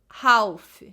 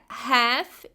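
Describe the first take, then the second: First: The L is clearly pronounced in this word. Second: The L is silent in this word. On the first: The speaker calls it wrong. "e não half ... Nós não vamos pronunciar o L" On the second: The speaker calls it right. "é half"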